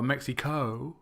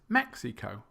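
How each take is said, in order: First: The stress is on a later syllable. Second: The stress is on the first syllable. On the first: The speaker calls it wrong. "It's not" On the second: The speaker calls it right. "It's Mexico"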